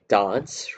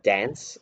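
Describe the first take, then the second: First: Said with the vowel heard in Adelaide. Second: Said with the vowel heard elsewhere in Australia. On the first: "in Adelaide say dance" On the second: "rather than dance"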